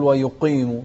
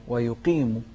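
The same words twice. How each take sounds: First: ويقيم with "qee" dulled towards "qey"; faulty "wa-yu-qey-mu" for ويقيم; wrong darkened vowel. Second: ويقيم with a clean "qee" after the q; pure long i. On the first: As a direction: let the heavy q thicken the vowel in ويقيم. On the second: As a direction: keep the vowel in ويقيم a thin "ee". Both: Shown as a demonstration. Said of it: "ما نقول ويقيم".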